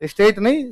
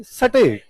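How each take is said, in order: First: स्टेट said as "esteṭ" with an added vowel before it; wrong pronunciation. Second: स्टेट said with a clean st cluster, no vowel before it; crisp "sṭeṭ", no vowel in front; correct pronunciation. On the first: Teacher mimics students' mistake: स्टेट as "esteṭ". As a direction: put an e in front: "esteṭ". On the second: Teacher corrects the class: स्टेट with a clean st. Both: Shown as a demonstration.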